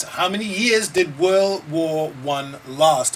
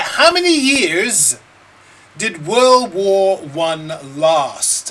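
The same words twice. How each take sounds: First: Said in the usual way. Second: Slow, loud quiz question; slow emphatic. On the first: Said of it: "Right, how many years". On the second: Shown as a demonstration. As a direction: drag out each word.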